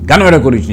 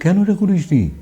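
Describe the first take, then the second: First: It is said in a harsh, scolding tone. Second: It is said in a soft, gentle tone. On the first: The listener is being reprimanded. "কাউকে যদি ধমকে কথা বলি" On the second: The listener is being addressed with closeness. "আমি এটাও বলতে পারি"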